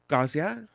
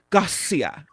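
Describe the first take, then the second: First: The middle consonant is a soft buzzing sound. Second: The middle consonant is a strong hissing s. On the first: The speaker calls it wrong. "it's not Gazia" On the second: The speaker calls it right. "You have to really pronounce that S"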